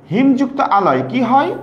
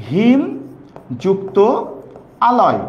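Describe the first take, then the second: First: Said in the usual way. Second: হিম, যুক্ত, আলয় each said alone with long pauses between; word by word. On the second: Shown as a demonstration. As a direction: lay out হিম যুক্ত আলয় slowly, one word at a time.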